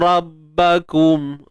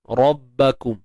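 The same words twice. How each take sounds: First: The r sound is light and thin. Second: The r sound is heavy and thick. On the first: The speaker calls it wrong. "Hati-hati supaya tidak berlaku" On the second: The speaker calls it right. "Huruf ra baris atas tebal"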